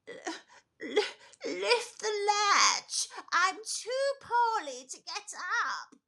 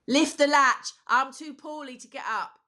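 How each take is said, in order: First: A frail, stammering old-woman voice. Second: An impression of the speaker's own grandmother.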